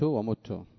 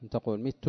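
First: "ومت" wymówione jako mitu, z i po m; "مت" z kasrą. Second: "مت" wymówione jako mutu, z u na początku; "مت" z dammą. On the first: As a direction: powiedz "ومت" z krótkim i. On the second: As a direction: powiedz "مت" z krótkim u po m. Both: Shown as a demonstration. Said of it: "يجوز الوجهان".

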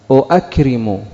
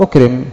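First: أؤكرم as "u-akrimu", both glottal stops sounded; two hamzas in أؤكرم. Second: أكرم as "ukrim", one opening hamza; second hamza dropped. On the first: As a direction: start أؤكرم on "u", then a fresh "a". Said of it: "ماذا ستقول؟". (أؤكرم بهمزة مضمومة تليها همزة مفتوحة) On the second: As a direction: open أكرم on "u", straight into k. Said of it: "فحذفت العرب". (أكرم بهمزة واحدة مضمومة وكاف ساكنة) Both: Shown as a demonstration.

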